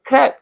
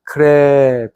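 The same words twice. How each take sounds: First: The word is said quickly and plainly. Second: The word is drawn out slowly, like crawling. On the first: The speaker calls it wrong. "이렇게 안 하고" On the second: The speaker calls it right. "좀 기어가듯이"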